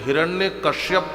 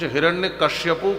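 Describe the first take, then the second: First: The second part is said as kashyap. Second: The second part is said as kashyapu. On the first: "कुछ हिरण्य कश्यप कहते हैं" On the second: "कुछ हिरण्य कश्यपु कहते हैं"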